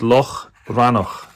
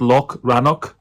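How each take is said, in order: First: The 'ch' is a rough guttural throat sound. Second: The 'ch' is a plain hard k sound. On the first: The speaker calls it right. "Make sure you get your gutturals in" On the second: The speaker calls it wrong. "It is not Loch Rannoch"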